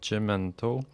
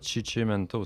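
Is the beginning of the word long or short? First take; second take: short; long. First: The word begins with one short syllable. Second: The word begins with a doubled chi syllable. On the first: The speaker calls it right. "c'est Chemento" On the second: The speaker calls it wrong. "c'est pas Chichimento"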